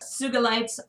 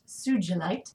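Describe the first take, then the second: First: The G is pronounced hard, as in 'go'. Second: The G is pronounced soft, as in 'gem'. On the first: The speaker calls it right. "And it's a hard G" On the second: The speaker calls it wrong. "often mispronounced"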